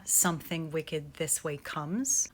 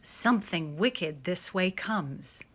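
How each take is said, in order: First: Soft and slow, marking the strong final beat on comes; rhythmic example. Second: Slow chanted spell, falling away on way; chanted, intone it like a magic spell; incantation chant. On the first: Teacher showing the line ends on a strong beat, soft and slow. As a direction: tap out each beat gently down to comes. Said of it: "like in that example we just saw". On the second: Chanted, teacher showing the sound of witch verse, slow incantation. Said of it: "It sounds like a magic spell or an incantation". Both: Shown as a demonstration.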